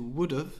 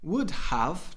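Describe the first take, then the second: First: The second word is reduced to a short 'of'. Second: Both words are fully pronounced, with the h.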